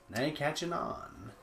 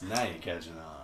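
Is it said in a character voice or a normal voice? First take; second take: normal voice; character voice. First: It is said in the speaker's normal voice. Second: It is said in a put-on Sinclair voice.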